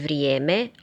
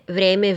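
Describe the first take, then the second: First: The first vowel is a gliding ije. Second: The first vowel is a plain e.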